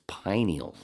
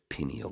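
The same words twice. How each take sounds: First: The first syllable sounds like the word 'pine'. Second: The first syllable does not sound like 'pine'. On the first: The speaker calls it right. "It's pineal, like the pine cone" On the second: The speaker calls it wrong. "I can't stand when people pronounce it pineal gland"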